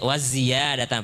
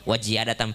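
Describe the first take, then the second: First: The word is said with a z sound. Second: The word is said with a j sound. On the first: The speaker calls it right. "bukan wajia waziyadatan pakai z" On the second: The speaker calls it wrong. "dengar orang baca wajiyadatan"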